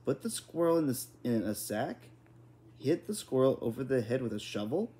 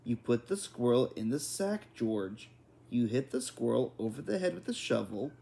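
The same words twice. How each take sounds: First: Mildly squeaky, rising incredulous questions; squeaky, despairing. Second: Firm, phrase-by-phrase instruction; slower, deliberate. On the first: Father questioning mother's grim instructions, squeaky and despairing. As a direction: echo it back in lightly voiced dismay. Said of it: "in a squeaky, despairing voice". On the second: Mother repeating grim instructions to father, deliberate and firm. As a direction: spell it out, pausing before "George". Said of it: "She said them more slowly". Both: A narrator's reading.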